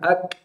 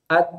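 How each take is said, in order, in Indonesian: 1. Bunyi k di akhir berakhir dengan percikan napas pendek. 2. Bunyi k di akhir berakhir dengan percikan napas pendek.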